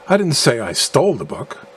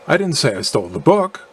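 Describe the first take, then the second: First: The stress falls on the word stole. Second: The stress falls on the word book. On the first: The book was acquired some other way than stealing. "implying that I acquired the book by some other means than stealing" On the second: Something other than the book was stolen. "implying that I did steal something other than the book"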